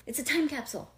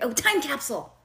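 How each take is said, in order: First: Said in the usual way. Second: Excited. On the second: Real, not acted. Suddenly remembers the word.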